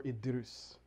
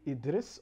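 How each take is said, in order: First: Idrus, slowly, ending in "-roos"; variant pronunciation. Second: Idris, slowly, ending in "-ris"; variant pronunciation. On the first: Explaining a name to non-Somali people, Idrus ending in "-roos". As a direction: say Idrus with an "oo" in the last syllable. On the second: Explaining a name to non-Somali people, Idris ending in "-ris". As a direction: say Idris with an "i" in the last syllable. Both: Shown as a demonstration. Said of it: "for those non-Somali people".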